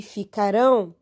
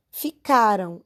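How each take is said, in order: First: "ficarão" with stress on the last syllable rão; stress on final syllable. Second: "Ficaram" with stress on ca, weak ending; stress on middle syllable. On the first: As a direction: land firmly on the "rão" of "ficarão". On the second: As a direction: hit the ca in "Ficaram", let "ram" drop. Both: Shown as a demonstration. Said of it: "é diferente".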